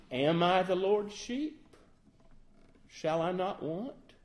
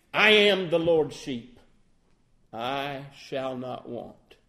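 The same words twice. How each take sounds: First: Timid. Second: Self-assured claim, leaning on I; boastful. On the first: Preacher mocking a too humble believer, timid and unsure. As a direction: ask it doubtfully, tentative. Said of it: "See the problem with that". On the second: Preacher mocking a boastful believer, a touch smug. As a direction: say it as a proud boast. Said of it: "That sounds a little bit boastful". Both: Shown as a demonstration.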